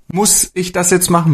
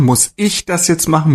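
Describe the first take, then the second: First: Jetzt lifted and leaned on, the rest light; stress on jetzt. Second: Ich lifted and leaned on, the rest light; stress on ich. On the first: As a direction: punch the word jetzt in the question. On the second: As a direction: put the weight on ich, as in me of all people. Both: Shown as a demonstration. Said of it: "immer ein anderes Wort groß geschrieben, so als Betonung".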